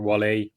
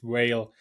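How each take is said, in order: First: It is two syllables, like the rapper's name. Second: It is one syllable, like the animal whale. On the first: The speaker calls it wrong. "there's a rapper called [name]" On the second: The speaker calls it right. "But it's whale"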